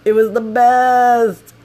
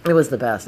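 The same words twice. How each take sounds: First: High, loud, stretched-out delight; gleeful exclamation. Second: Said in the usual way. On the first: Real, not acted. Storyteller relishing the rescue by locals, loud drawn-out glee. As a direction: belt it out slowly, savoring BEST. Gleeful climax, then repeated plainly.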